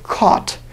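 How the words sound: The vowel is long and rounded, almost w-like. "You can almost hear this long W sound"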